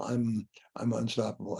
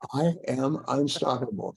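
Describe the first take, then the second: First: It is mumbled quietly and hesitantly. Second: It is said loudly and with force. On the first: The speaker does not really believe it. The speaker calls it wrong. "mumble, mumble" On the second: The speaker truly means it. The speaker calls it right. "say it like you mean it"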